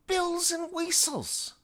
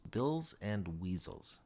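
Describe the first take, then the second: First: Put-on very high, louder, slow "whistles" in her accent; exasperated Gadsby. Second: Said in the usual way. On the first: Gadsby insisting to Mitchell, very high and slow. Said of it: "Gadsby insists". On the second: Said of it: "Mitchell repeats".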